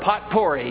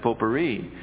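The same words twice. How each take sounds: First: The word is pronounced letter by letter as spelled. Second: The word is pronounced the French way, letters silent. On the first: The speaker calls it wrong. "I'm a phonic pronouncer" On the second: The speaker calls it right. "the correct pronunciation of that is potpourri"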